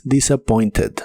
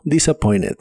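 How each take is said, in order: First: "disappointed" ending in a clear -ted; T sounded. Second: "disappointed" without T, like "disappoined"; silent T. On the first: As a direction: keep the T in "disappointed". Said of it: "es muy común que no se pronuncie". ("disappointed" con T clara) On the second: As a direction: skip the T in "disappointed". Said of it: "la T de esta palabra". ("disappointed" sin T) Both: Shown as a demonstration.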